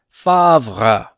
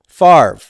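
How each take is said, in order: First: The R sound comes after the V sound. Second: The R sound comes before the V sound. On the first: This is how the French say the name. "they would pronounce it in France as Favre" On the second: This is how Americans say the name. "We put that R before the V"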